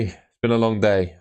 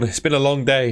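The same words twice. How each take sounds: First: Said in the usual way. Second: Tired. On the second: Real, not acted. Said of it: "another big yawn".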